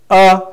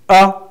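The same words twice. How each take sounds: Both takes have the same delivery.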